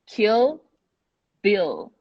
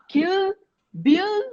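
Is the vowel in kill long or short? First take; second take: short; long. First: The vowel in kill is a short i. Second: The vowel in kill is long, like ee. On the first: The speaker calls it right. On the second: The speaker calls it wrong. "It's not"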